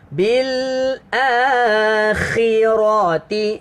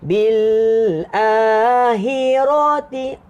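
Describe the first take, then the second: First: The kh is said as a harsh throaty sound. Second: The kh is softened to a plain h sound. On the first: The speaker calls it right. "dia ada bunyi" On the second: The speaker calls it wrong. "Jangan baca bil akhirati. ... Dia kha-nya tak bunyi. Dia jadi bunyi macam ha"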